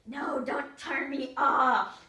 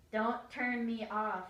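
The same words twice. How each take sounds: First: Put-on slow, loud, drawn-out child's plea; loud, stretched-out begging shout; loud slow wail. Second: Put-on slow, pleading little kid; slow pleading, not yet loud. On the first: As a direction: wail it out as he grabs the remote. Grabs remote, begs again louder. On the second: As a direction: drag it out like a begging child. Little brother begs, first take.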